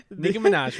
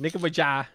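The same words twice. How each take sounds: First: Said in the usual way. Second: "Nicki Minaj" fumbled as "Nicki Mi-jah"; mispronounced name. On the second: Real, not acted. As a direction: say "Minaj" wrong, ending in an open "zhah". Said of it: "I kinda wanna let you suffer".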